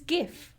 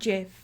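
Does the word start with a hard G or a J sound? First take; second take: hard G; J sound. First: The word starts with a hard G sound. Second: The word starts with a soft J sound. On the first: The speaker calls it right. "It starts with a G anyway, not J. Which means it's GIF" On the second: The speaker calls it wrong. "It's not GIF"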